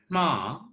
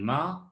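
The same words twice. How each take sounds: First: The nasal at the start is voiceless. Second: The nasal at the start is voiced. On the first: It means down or lower. "you'd get the voices nasal" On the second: It means mother or wound. "you get uh, the uh, voiced uh, nasal"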